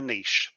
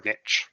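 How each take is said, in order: First: "niche" pronounced French-style, rhyming with quiche; niche as "neesh". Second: "niche" rhyming with pitch; niche as "nitch". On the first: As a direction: say "niche" as NEESH, long ee and soft sh. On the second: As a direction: say "niche" as NITCH, short i and tch ending. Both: Shown as a demonstration. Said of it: "that's my preferred pronunciation".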